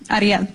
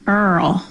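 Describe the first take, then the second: First: The name is said the Spanish way. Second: The name is said the Kentucky way.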